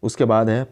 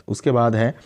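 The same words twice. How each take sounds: The two takes are said the same way.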